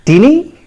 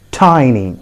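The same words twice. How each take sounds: First: "tiny" as TIN-ee, high and rising; wrong pronunciation. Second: "tiny" as TY-nee, falling; correct pronunciation. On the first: Teacher quizzing learners with a mistake, "tiny" as TIN-ee. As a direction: ask "tiny" with a short i. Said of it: "You got it wrong". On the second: Teacher telling learners the correct form, "tiny" as TY-nee. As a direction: say "tiny" with an eye vowel. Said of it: "the correct pronunciation is". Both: Shown as a demonstration.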